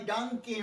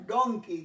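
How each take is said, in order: First: ডাঙ্কি with an open a, like dunky; wrong pronunciation. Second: ডঙ্কি with a rounded o, like donky; correct pronunciation. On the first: Teacher warning pupils of a common mistake, ডাঙ্কি with an a. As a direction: say ডাঙ্কি with dunk in the first syllable. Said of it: "ডাঙ্কি নয়". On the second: Teacher correcting a common mistake, ডঙ্কি with a rounded o. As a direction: say ডঙ্কি with don in the first syllable. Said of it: "এই ওয়ার্ডটা special". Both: Shown as a demonstration.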